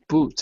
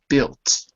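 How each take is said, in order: First: The vowel is a long 'oo' sound. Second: The vowel is a short 'i' sound. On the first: The speaker calls it wrong. "but you don't say the U" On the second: The speaker calls it right. "it's built"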